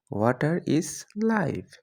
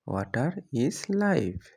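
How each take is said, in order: First: Said in the usual way. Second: Slow, word by word for learners; drawn out for students to copy; slow clear repeat. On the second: Shown as a demonstration. (ধীরে স্পষ্ট করে) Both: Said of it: "example then repeated slowly".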